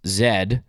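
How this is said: The letter is named in the Canadian way. "in Canada, that's pronounced Z"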